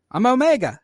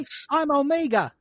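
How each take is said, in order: First: Higher-pitched, lightly voiced girl clone; Omega introducing herself. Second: High mock New Zealand accent; Korg. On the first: Omega introduces herself to confused clones, high light voice. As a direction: introduce yourself in a raised voice. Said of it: "She's like". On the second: Host mocking Omega's accent, high New Zealand impression. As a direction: exaggerate the New Zealand vowels, pitched up. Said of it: "she sounded too much like Korg to not be New".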